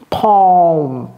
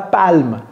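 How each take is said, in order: First: The L is nearly silent. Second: The L is clearly pronounced. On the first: The speaker calls it right. "Comme s'il n'y avait presque pas de L" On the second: The speaker calls it wrong. "ne dites pas palme"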